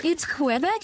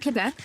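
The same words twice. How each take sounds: First: "Quebec" said with a kw sound, kweh-BECK; KWE-bec pronunciation. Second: "Quebec" said with a plain k, kuh-BECK; no w sound in "Quebec", just kuh-beck; KUH-bec pronunciation. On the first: Streamer debating how Quebec is said, "Quebec" as kweh-beck. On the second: Streamer debating how Quebec is said, "Quebec" as kuh-beck. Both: Shown as a demonstration. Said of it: "it's not Quebec".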